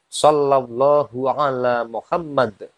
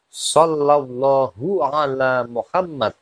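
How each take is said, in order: The two takes are said the same way.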